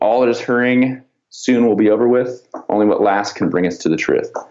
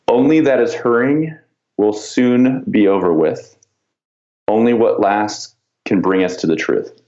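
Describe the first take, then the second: First: It is said at a normal pace. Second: It is said slowly and deliberately.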